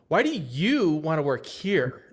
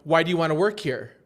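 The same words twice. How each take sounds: First: It is asked in a doubting, incredulous tone. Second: It is asked as a plain, routine question.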